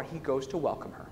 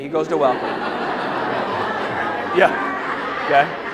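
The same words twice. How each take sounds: First: Said in the usual way. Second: Slow, breathy laugh through the words; slowed, giggling repeat. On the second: Shown as a demonstration. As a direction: say it with a knowing laugh.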